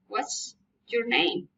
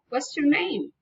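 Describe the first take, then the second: First: The voice falls at the end. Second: The voice rises at the end. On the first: It is a plain question. "Special questions, spelling intonations" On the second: It shows friendly interest and politeness. "Friendly interest, politeness, raising intonation"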